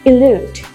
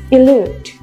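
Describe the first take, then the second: No difference in how they are said.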